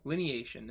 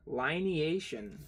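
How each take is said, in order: First: "lineation" said lin-ee-AY-shun, short i; corrected "lineation" with the first syllable as "lin"; "lineation" fixed to a short i; lin-eation. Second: "Lineation" said lie-nee-AY-shun, long i; "Lineation" with the first syllable as "lie"; first try at "Lineation" with a long i; lie-neation. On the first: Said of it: "It's probably lineation". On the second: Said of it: "That's an interesting way to say it". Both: Shown as a demonstration.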